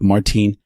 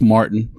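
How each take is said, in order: First: The name is said with a German pronunciation. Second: The name is said with an American pronunciation. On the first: This is how the name is said in its home country. "But Martin" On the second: This is how Americans say the name. "That's Martin for us Texans and Americans"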